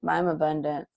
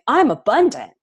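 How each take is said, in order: First: It is said flatly, without energy. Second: It is said with rising energy.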